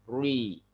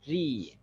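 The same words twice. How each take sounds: First: The syllable is said with a heavy, thickened sound. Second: The syllable is said with a light, thin sound. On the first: The speaker calls it wrong. "bukan ri. Jadi nggak perlu menebalkan mulut kita atau suara kita" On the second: The speaker calls it right. "tipis saja"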